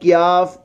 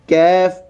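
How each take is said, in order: First: The k is followed by a 'yaa' glide. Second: The k is followed by an 'ai' vowel. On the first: "कैफ क्याफ कुछ ऐसा नहीं पढ़ना" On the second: "कैफ क्याफ कुछ ऐसा नहीं पढ़ना"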